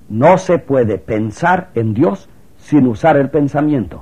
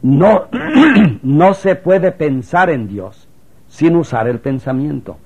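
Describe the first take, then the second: First: The sentence is spoken too quickly. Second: The sentence is spoken more slowly. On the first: The speaker calls it wrong. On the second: The speaker calls it right.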